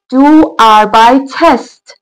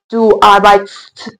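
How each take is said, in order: First: An extra vowel is sounded before the ending. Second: No vowel is sounded before the ending. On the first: The speaker calls it right. "یه ا اضافه میکنیم برای راحتی در تلفظ" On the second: The speaker calls it wrong. "اگه این ا نباشه تلفظمون سخت و غیر ممکن میشه. خیلی زشت"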